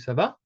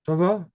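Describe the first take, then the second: First: The pitch rises at the end. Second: The pitch falls at the end. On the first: It is asked as a question. "if I ask you" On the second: It is given as an answer. "if you kind of end on a descending note"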